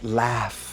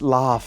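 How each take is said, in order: First: The vowel is a flat 'a' sound. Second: The vowel is a broad 'ah' sound. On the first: This is the American pronunciation. The speaker calls it wrong. "and not laugh" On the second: This is the British pronunciation. The speaker calls it right. "it's laugh"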